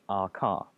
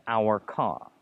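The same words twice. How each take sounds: First: "Our" said like the letter R; reduced "Our". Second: "our" said like "hour", in two sounds; full "our". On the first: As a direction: shrink "Our" to a single ah sound. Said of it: "R, like the letter R". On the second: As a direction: open "our" out slowly into ow-er. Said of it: "Better to stick with our". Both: Shown as a demonstration.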